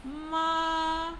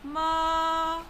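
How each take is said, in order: First: The pitch rises from middle to high. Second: The pitch rises from middle to high.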